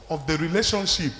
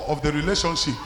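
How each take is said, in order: Both takes have the same delivery.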